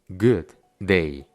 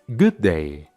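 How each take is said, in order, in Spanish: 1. Los dos sonidos de d están separados por una pausa. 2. Los sonidos de d se unen en un solo sonido más largo. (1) "en vez de separar los sonidos y decir" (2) "simplemente los unimos y los hacemos un poco más largos"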